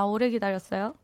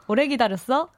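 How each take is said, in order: First: It is said in standard Seoul speech. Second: It is said in an attempted regional dialect.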